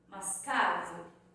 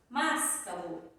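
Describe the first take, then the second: First: The stress is on the middle syllable. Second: The stress is on the first syllable. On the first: The speaker calls it right. "Pode ser que seja o K" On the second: The speaker calls it wrong. "Não é o mas"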